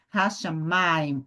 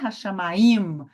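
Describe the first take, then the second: First: The stress falls on the penultimate syllable. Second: The stress falls on the final syllable. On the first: The speaker calls it right. "Eu subi aqui no merechá" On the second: The speaker calls it wrong. "Eu não subi no im. Não é Hashamayim"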